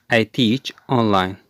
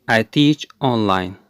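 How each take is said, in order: Both takes have the same delivery.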